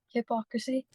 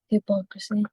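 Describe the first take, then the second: First: The word starts with a 'hih-pock' sound. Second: The word starts with a 'hippo' sound. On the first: The speaker calls it right. "Hypocrisy. Yeah" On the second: The speaker calls it wrong. "Did I say hippo again?"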